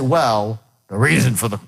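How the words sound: The word 'well' starts at a low pitch. The speaker calls it wrong. "you're not starting off high enough... you can't get there"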